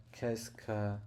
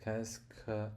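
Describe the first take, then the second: No difference in how they are said.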